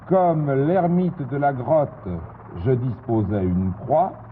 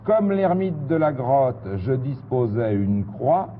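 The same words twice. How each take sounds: First: It is read at a normal pace. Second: It is read a little faster.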